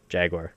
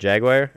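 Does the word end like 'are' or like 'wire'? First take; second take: are; wire. First: The word ends with an 'are' sound. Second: The word ends with a 'wire' sound. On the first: "or do you say jaguar?" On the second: "like I do"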